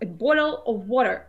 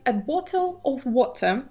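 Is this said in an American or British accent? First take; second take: American; British. First: The t sounds become soft d sounds. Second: The t sounds are crisp and clear. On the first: "в американском английском звук T вообще переходит в звук D" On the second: "в британском английском мы говорим"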